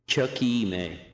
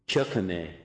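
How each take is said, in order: First: The second syllable has a long E sound. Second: The second syllable has a short vowel sound. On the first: This is how learners and some native speakers say it. "The second syllable in the future tends to get a longer sound, a long E sound" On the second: This is how people familiar with the language say it. "People familiar with the language tend to shorten it"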